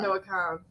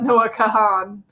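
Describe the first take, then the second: First: The surname is said with one syllable. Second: The surname is said with two syllables. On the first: The speaker calls it right. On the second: The speaker calls it wrong.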